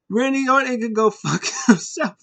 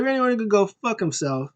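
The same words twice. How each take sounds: First: High, hammed-up witch voice with laughter; witch puppet. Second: High mock curse, toned down; lightly voiced repeat. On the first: Abby Witch cursing Randy Orton, high mock witch voice. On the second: Repeating the witch's curse for listeners, lighter high imitation.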